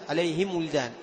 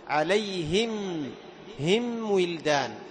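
First: The m sound blends into the following w. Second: The m sound is closed and clearly separate. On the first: The speaker calls it wrong. "تخلط الميم بالواو" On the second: The speaker calls it right. "فإطباق الشفتين مع المحافظة على صفة البينية"

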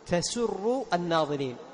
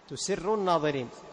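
First: The first word is voiced tasurru, vowels a then u. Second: The first word is voiced tusirru, vowels u then i. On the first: It pleases the onlookers. The speaker calls it right. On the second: It makes the onlookers keep a secret. The speaker calls it wrong.

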